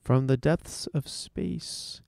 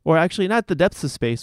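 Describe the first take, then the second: First: Slow, dramatic sci-fi trailer voice; old sci-fi announcer. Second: Said in the usual way. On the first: Pretend. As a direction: intone it like a fifties space serial. Radio tease of space news.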